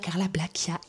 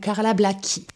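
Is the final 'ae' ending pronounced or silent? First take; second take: pronounced; silent. First: The final 'ae' ending is pronounced aloud. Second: The final 'ae' ending is left silent. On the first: The speaker calls it wrong. "On ne dit pas Carla Blackiae" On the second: The speaker calls it right. "comme m'a dit ma copine Chacha, on dit Carla ou Carla Blackie"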